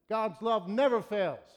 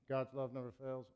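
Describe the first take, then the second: First: The words are said strongly, with much force. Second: The words are said flatly, with little force. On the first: The speaker calls it right. "something like this. ... So there's some emphasis" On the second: The speaker calls it wrong. "So instead of saying"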